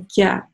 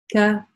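First: The vowel after k is fronted toward ya. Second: The vowel after k is an open a. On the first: The speaker calls it wrong. "не нужно говорить специально «кя», то есть это склонение «алиф» к букве «я»" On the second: The speaker calls it right. "Нет, это мягкая буква"

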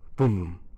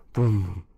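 Both takes have the same delivery.

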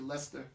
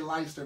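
First: It is pronounced the way locals say it. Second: It is pronounced the way Americans say it. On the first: The speaker calls it right. "but it's actually Leicester" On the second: The speaker calls it wrong. "Americans say Leicester"

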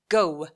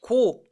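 First: The vowel sounds English-style. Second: The vowel sounds Korean-style. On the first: The speaker calls it right. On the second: The speaker calls it wrong.

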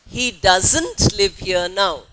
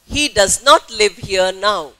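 First: Does not is said as one contracted word. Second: Does not is said as two full words. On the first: It suits informal speech. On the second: It suits formal speech.

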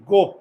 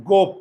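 The two takes are said the same way.

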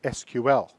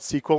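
First: It is said as separate letters. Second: It is said as a single word. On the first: The speaker calls it right. "So they decided to just call it SQL" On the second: The speaker calls it wrong. "people still call it SQL, and it makes me want to cry"

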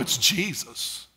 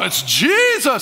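First: It is said with dismissive overfamiliarity. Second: It is said with awe and reverence.

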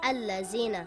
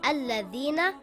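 First: The middle consonant is a 'z' sound. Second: The middle consonant is a 'th' as in 'this'. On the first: The speaker calls it wrong. "and not Allazina" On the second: The speaker calls it right. "this word is pronounced Alladhina"

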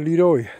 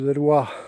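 First: The name is pronounced the English way. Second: The name is pronounced the French way. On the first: The speaker calls it wrong. "Nie mówi się Leroy" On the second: The speaker calls it right. "Mówi się Leroy"

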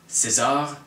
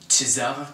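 The two takes are said the same way.

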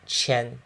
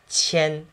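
First: The first consonant is made further back. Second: The first consonant is made behind the teeth. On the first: The speaker calls it wrong. "not qian" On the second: The speaker calls it right. "notice the pronunciation is qian"

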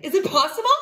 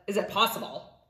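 First: The voice rises at the end like a question. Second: The voice falls at the end, not questioning.

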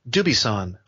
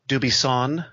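First: The stress falls on the first syllable. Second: The final N is a hard, full consonant. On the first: "on the first syllable" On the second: "with a hard N"

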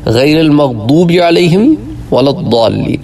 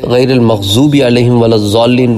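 First: The emphatic letter is pronounced like a d. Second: The emphatic letter is pronounced like a z. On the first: The speaker calls it right. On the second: The speaker calls it wrong.

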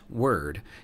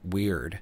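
First: The word rhymes with heard. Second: The word rhymes with beard.

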